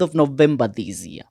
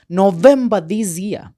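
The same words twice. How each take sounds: First: Said in the usual way. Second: "November this year" slowed, each word weighed; slow down and stamp "November this year" as a reminder; stressed reminder. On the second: Shown as a demonstration. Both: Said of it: "I remind you".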